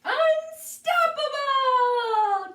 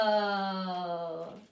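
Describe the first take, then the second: First: Long, high, loud, stretched out yell; battle cry. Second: Lower, odd creature voice, steady; deep monster cry. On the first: The new creature taunting the cat, long loud high victory cry. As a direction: bellow it like a victory roar. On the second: Crab-bird-turtle announcing itself, low monster voice. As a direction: boom it like a monster. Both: Acted.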